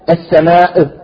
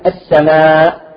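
First: The final glottal stop bounces with an echo. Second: The final glottal stop is clear and plain. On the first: The speaker calls it wrong. "بعضهم يقلقلها يقول السماء" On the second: The speaker calls it right. "إذا أردنا أن نقف عليها نقول السماء"

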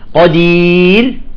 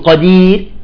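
First: The final r sound is clearly heard. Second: The final r sound is dropped. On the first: The speaker calls it right. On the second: The speaker calls it wrong.

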